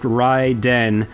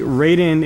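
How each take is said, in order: First: The name is said in a Japanese-style way. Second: The name is said in an English-style way. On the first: The speaker calls it right. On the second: The speaker calls it wrong.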